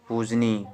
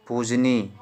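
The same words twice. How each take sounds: The two takes are said the same way.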